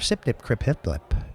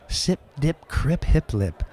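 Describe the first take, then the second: First: The phrase is said at a faster pace. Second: The phrase is said at a slower pace.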